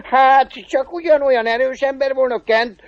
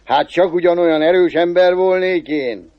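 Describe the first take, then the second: First: High-pitched devil, laughing first; cackle, then ask in a high devil voice; chuckling devil. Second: A hint of a self-impressed cobbler; lightly voiced cobbler, drawing out the thought; cobbler musing to himself. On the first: Acted. Devil asking the cobbler about his strength, high and amused. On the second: Cobbler marvelling at his own strength after killing flies, lightly musing. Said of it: "gondolta a szőcs".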